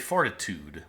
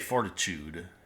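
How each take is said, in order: First: The middle sound is a plain t sound. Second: The middle sound is a ch sound. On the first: This is the speaker's own way of saying it. "I would say fortitude with a t" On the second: This is the British way of saying it. "I would never say fortitude. Chewed"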